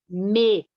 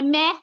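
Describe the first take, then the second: First: The vowel is closed and weak. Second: The vowel is open and strong. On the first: It is the unstressed pronoun. The speaker calls it right. "é fechado" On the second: It sounds like an animal bleating. The speaker calls it wrong. "era o bezerro, a cabrita que estava berrando"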